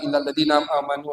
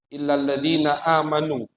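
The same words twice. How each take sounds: First: The words run together, the 'a' sounds unclear. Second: The glottal stop before the 'a' is clearly pronounced. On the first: "langsung gitu. A-nya kayak kayak enggak jelas" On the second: "A-nya dibaca hamzahnya"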